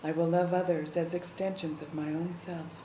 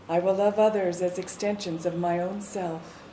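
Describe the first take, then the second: First: It is spoken a little more quietly. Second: It is spoken in a normal full voice.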